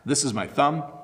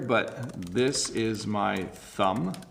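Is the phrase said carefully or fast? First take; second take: fast; carefully. First: It is said quickly at a natural speed. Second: It is said slowly with exaggerated articulation. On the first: "Let me say those fast" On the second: "I'm over pronouncing it there"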